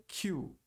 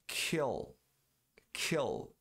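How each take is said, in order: First: "kill" turned into "Q"; dropped L. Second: "kill" with a clear final L; pronounced L. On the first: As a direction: glide to a W sound, like "Q". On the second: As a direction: end "kill" tongue to palate. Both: Shown as a demonstration. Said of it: "Não pronunciando L".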